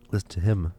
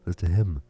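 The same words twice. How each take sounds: The two takes are said the same way.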